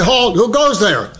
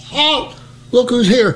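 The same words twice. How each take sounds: First: Higher, formal mock challenge; proper guard challenge. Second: Wrong guard challenge. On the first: Sergeant corrects the private's challenge, formal higher voice. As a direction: say it by the book. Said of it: "you're supposed to say". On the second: Retold or imitated. Private repeats his botched challenge to the sergeant, high mock shout. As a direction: replay the blunder proudly. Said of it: "I says".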